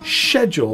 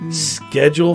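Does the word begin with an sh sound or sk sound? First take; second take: sh; sk. First: The word begins with a soft sh sound. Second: The word begins with a hard sk sound. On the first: This is the British way. "for the British" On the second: This is the American way. "for Americans"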